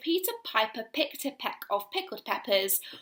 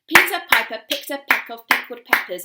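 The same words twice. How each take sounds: First: It is said at a slower tempo. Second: It is said at a faster tempo.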